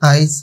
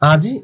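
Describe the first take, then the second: First: The i vowel comes before the j sound. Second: The i vowel comes after the j sound. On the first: "এই রস্বই কার চিহ্নটা ধ্বনি হিসেবে ঢুকে গেল" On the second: "আজই হয়ে গেল কি আইজ"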